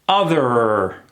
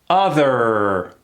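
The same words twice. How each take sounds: No difference in how they are said.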